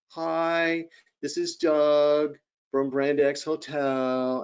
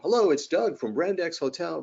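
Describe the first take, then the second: First: It is said in a gloomy, flat tone. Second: It is said in a bright, enthusiastic tone.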